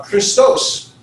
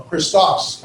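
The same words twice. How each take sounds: First: Christos slowly, ending like "toce"; long O pronunciation. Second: Christos ending like "toss"; short O pronunciation. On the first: Teacher offering one of two pronunciations, Christos with a long O. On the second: Teacher offering the other pronunciation, Christos with a short O. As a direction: say Christos with an open, short o in the last syllable. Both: Shown as a demonstration. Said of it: "however you wanna pronounce that".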